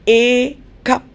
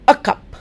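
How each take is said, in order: First: The article is said with a full vowel. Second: The article is said with a reduced vowel. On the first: The speaker calls it wrong. "I never say a cup" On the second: The speaker calls it right. "I say a cup"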